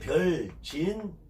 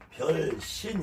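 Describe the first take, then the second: First: The second syllable starts with a j sound. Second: The second syllable starts with an s sound. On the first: "발음이 두 개" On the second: "발음상 신으로 한다는 거예요"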